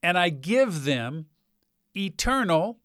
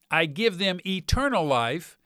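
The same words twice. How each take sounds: First: Said in the usual way. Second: Eternal lifted and leaned on; stress on eternal. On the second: Shown as a demonstration. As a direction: land hard on eternal, rising. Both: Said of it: "notice the emphasis".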